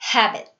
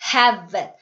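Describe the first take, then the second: First: The middle consonant is a soft b. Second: The middle consonant sounds like a v. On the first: The speaker calls it right. "입술과 입술이 흠 하고 다물어지셔야 돼요" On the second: The speaker calls it wrong. "V소리처럼 이렇게 하시면 다른 소리가 나와요"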